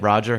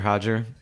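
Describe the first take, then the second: First: The name begins with an English R sound. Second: The name begins with an H sound. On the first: "if you're gonna call him Roger" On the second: "Brazilian enunciation"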